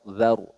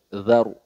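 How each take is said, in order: No difference in how they are said.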